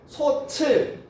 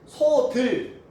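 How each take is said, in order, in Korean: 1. 두 번째 음절은 ch 소리로 시작합니다. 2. 두 번째 음절은 d 소리로 시작합니다. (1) "다 틀린 발음" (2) "다 틀린 발음"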